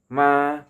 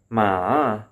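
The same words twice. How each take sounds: First: The pitch stays high and level. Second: The pitch dips low and then rises. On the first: It means mother. "with a high level tone" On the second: It means horse. "low dipping tone"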